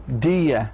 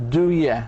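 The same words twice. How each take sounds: Both takes have the same delivery.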